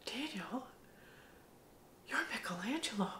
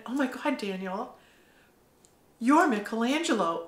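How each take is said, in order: First: Soft breathy whisper of his name; awed hushed whisper; whispered revelation. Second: Gasping "oh my God", then the name; the truth hitting you all at once; astonished exclamation; stunned realization. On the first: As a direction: lean in and whisper it like a secret. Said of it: "I walk up to him and I go". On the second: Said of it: "I literally went". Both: Retold or imitated.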